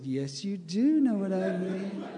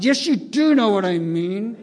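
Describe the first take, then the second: First: Said in the usual way. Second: Loud, higher, exasperated police captain; louder insisting captain. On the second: Retold or imitated. Police captain pressing the singer, now loud and exasperated. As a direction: push it harder, losing patience.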